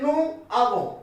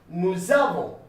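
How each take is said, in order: First: The words are said separately without a z sound. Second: The words are joined with a linking z sound. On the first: The speaker calls it wrong. "You don't say nous avons" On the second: The speaker calls it right. "We say nous avons. ... as one word"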